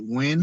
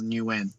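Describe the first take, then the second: First: The name sounds like 'win', one syllable. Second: The name sounds like 'new win', two syllables. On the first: This is how it is said in the United States. "in uh the states where people say Win" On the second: This is how it is said in Australia. "how I say it in Australia is Nguyen"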